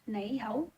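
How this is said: It is spoken with Cantonese pronunciation. "for Cantonese"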